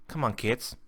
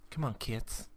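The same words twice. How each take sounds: First: Said in the usual way. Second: Softer, disappointed repeat; quiet. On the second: Real, not acted. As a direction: drop the voice, almost to yourself.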